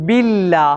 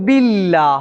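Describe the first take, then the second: Both takes have the same delivery.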